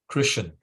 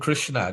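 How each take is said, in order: First: The word ends without the final vowel. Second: The word ends with the final vowel sounded. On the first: The speaker calls it wrong. "they drop the A on the end" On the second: The speaker calls it right. "the A needs to be pronounced"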